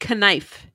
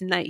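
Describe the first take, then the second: First: The K at the start is pronounced. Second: The K at the start is silent. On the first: This is how a learner would say it from the spelling. The speaker calls it wrong. "If you were learning our language, it would be knife" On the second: This is how the word is actually said. The speaker calls it right. "it's not. It's knife"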